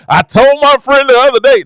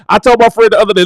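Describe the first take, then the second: First: Higher, stretched-out whooping line; joking demo of a preacher's whoop. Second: Said in the usual way. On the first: Shown as a demonstration. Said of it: "this is my hoop right here". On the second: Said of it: "I'm outta here".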